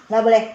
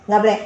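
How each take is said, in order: The two takes are said the same way.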